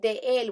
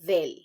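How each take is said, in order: First: It is said as two separate words. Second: It is said as one contracted word. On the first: The speaker calls it wrong. "instead of saying de él" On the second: The speaker calls it right. "we're going to say del"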